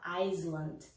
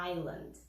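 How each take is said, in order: First: Iceland with the S sounded, eye-sland; wrong Iceland. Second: Island with a silent S, eye-land; island said eye-lund, no S at all; correct island. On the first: Teacher shows students the wrong way: S sounded. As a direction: Iceland said as ice-land, S pronounced. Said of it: "a gente não vai falar". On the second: Teacher models the right way for students: silent S. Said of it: "a gente fala". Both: Shown as a demonstration.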